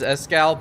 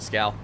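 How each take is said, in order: First: The word starts with a vowel sound. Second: The word starts straight with an s sound. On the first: The speaker calls it right. "definitely it should be pronounced as Escal" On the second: The speaker calls it wrong. "but I'm lazy, so Scal"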